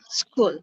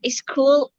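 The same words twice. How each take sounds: First: The word starts directly with the consonants. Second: An extra vowel sound comes before the word. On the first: The speaker calls it right. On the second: The speaker calls it wrong.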